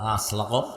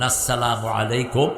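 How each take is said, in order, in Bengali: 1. সালামটি জড়িয়ে আর ছোট করে বলা হয়েছে। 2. সালামের প্রতিটি ধ্বনি স্পষ্টভাবে উচ্চারিত হয়েছে। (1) "অধিকাংশ নেতাদের সালাম ভুল" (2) "আপনি স্পষ্ট অক্ষরে সালাম দিবেন"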